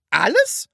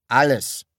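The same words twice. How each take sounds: First: High, loud rising question; questioning echo. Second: Annoyed one-word answer, falling. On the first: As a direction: echo ALLES in disbelief, sharply rising. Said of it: "fragte sie". (erstaunte Nachfrage) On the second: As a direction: say ALLES louder, as an irritated statement. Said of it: "sagte er ärgerlich". (verärgert) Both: A narrator's reading.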